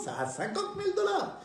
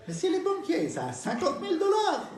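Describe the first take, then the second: First: Put-on old lady voice, higher. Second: Put-on old lady voice.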